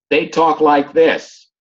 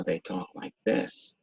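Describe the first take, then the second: First: Slow, projected talk; drawn out and pushed to carry; raised voice over a fan. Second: Soft and low; talking softly as if the room is silent; quiet-room voice. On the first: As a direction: talk up over background noise. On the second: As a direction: drop to a hushed, low voice. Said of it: "So they talk like this". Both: Shown as a demonstration.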